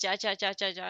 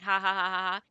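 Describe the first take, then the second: First: Each syllable starts with a hard J sound. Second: Each syllable starts with a soft H sound. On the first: It is read as plain letters. The speaker calls it wrong. "I kept right reading it as ja ja ja ja ja" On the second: It is meant as laughter. The speaker calls it right. "like they're going ha ha ha ha ha"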